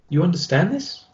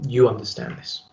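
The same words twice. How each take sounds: First: The pitch rises at the end. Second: The pitch stays level through the end. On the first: It sounds like a question being asked. "using an uptone will have a slight inflection towards the end of the sentence" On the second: It simply delivers information as a statement. "a neutral tone of voice is a tone of voice which goes in a flat line"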